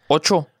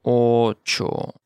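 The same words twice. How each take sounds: First: Said in the usual way. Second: "Ocho" in two long syllables; slow model. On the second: Shown as a demonstration. Teacher modelling vocabulary for learners, slow "Ocho".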